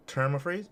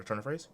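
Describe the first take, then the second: First: "term of phrase" said as a slip, term with an m; misspoken phrase. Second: "turn of phrase" with n in turn, softer self-correction; quietly fix it to "turn of phrase"; corrected phrase. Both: Real, not acted. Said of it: "or turn of phrase".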